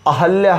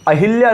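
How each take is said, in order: First: No 'i' vowel follows the h sound. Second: An 'i' vowel follows the h sound. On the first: The speaker calls it right. "अहल्या होता है" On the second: The speaker calls it wrong. "अहिल्या नहीं होता साहब"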